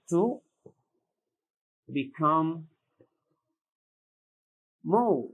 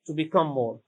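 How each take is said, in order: First: "To become more." with a pause after "To" and after "become"; spaced out for dictation. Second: Said in the usual way. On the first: Shown as a demonstration. Teacher repeating the meaning for students, word by word. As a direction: hand each word over separately. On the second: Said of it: "Increase is the verb".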